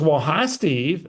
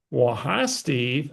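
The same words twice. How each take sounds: First: Lightly put-on caller voice, drawn out slowly; Barbara's voice. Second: Said in the usual way. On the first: Caller greeting him on the phone, light imitation of her voice. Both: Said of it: "I gotta use Barbara's voice for effect here".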